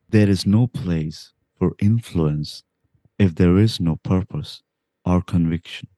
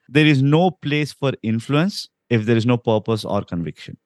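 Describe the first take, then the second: First: The sentence is spoken slowly, in an imitated voice. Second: The sentence is spoken at a normal pace.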